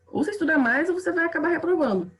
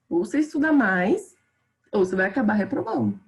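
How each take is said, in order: First: It is said quickly with no pause after 'mais'. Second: It is said slowly with a pause after 'mais'. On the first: The speaker is scolding the listener. "numa sequência rápida, tipo, super rápida de informações, eu não vou nem pausar" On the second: The speaker is reflecting on a choice. "se eu tô naquela reflexão, numa mais devagar"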